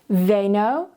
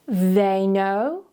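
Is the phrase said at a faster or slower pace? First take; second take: faster; slower. First: It is said at a faster pace. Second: It is said at a slower, careful pace.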